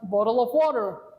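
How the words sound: It is said in an American accent. "That's the American uh, version"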